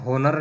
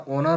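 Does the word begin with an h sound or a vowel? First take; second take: h sound; vowel. First: The word begins with an audible h sound. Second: The word begins directly with a vowel sound. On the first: The speaker calls it wrong. "इसमें होनर नहीं होता" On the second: The speaker calls it right. "ओनर होता है"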